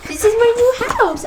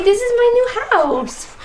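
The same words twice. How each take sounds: First: Put-on high, falling baby voice; speaking for the baby. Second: Put-on high baby voice for the baby; speaking for the baby. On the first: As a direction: say it again as the baby, sing-song. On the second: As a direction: voice the baby's words, sing-song.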